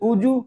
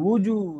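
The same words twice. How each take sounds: First: The word starts with a glottal stop. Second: The word starts with a rounded w sound. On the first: The speaker calls it wrong. "তখন তো এই যে হামজা দিয়ে উ হয়ে যায়।" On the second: The speaker calls it right. "ঠোঁট দিয়ে।"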